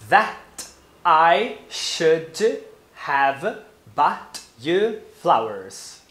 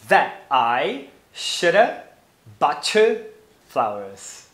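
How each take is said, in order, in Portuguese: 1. As palavras são ditas sem mudanças de som. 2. As palavras são ligadas com mudanças de som. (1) "repita depois de mim" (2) "usando esses fenômenos fonológicos"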